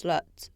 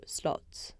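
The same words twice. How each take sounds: First: "slut" said in place of "slot", with an uh vowel; mispronounced slot. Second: Said in the usual way. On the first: Retold or imitated. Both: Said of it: "I pronounce slut for slot".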